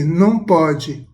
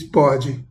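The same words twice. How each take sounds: First: Slow, loud mock reprimand; imitating a mother's drawn-out prohibition; mother's scolding no. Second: Brief imitated toddler reply; short retold child's comeback; toddler's cut-down reply. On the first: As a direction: forbid a toddler slowly and firmly. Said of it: "A mãe diz assim". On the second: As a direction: answer back with just the one word. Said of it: "Aí ela diz".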